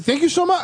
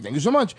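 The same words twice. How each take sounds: First: Higher-pitched retold thanks; imitating gas-station helper. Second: Said in the usual way. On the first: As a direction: quote his thanks in a raised pitch. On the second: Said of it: "I was like".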